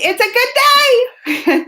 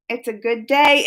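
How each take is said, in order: First: High, stretched-out, gleeful cry; excited exclamation. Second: Said in the usual way. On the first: Real, not acted. Streamer celebrating a good day with viewers, excited. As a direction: sing it out with big excitement.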